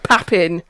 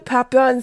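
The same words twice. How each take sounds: First: The name is said with an English accent. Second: The name is said with a French accent. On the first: "If we want the English" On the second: "Can we keep a low down on the French accents?"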